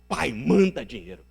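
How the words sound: It is read in a harsh, angry tone. The son is making a rude demand. "ele volta furioso ... É um moleque muito desaforado"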